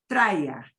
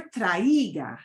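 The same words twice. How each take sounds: First: "Traiga" as TRY-gah, two syllables, pitched lower; short, falling "Traiga" with vowels run together; blended vowels. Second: "traiga" broken into tra-EE-ga; three-syllable "traiga" with a punched EE; wrong pronunciation. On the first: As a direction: blend the a and i of "Traiga" into one glide. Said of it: "They're gonna blend together". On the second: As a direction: split the vowels of "traiga", stressing the i. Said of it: "Okay, never traiga". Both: Shown as a demonstration.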